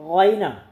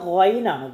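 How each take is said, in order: The two takes are said the same way.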